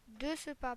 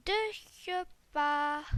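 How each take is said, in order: First: Said in the usual way. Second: Put-on slow little babyish voice. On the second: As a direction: say it like a tiny baby. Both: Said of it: "J'ai fait la petite voix de bébé".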